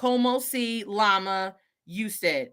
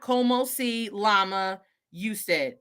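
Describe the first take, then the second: First: The word se has an ee vowel. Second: The same.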